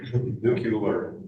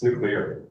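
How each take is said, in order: First: The word is said like 'nucular'. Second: The word is said like 'nuclear'. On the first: This imitates someone else's mispronunciation. The speaker calls it wrong. "he couldn't even pronounce the words" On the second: This is the correct pronunciation. The speaker calls it right. "it's nuclear"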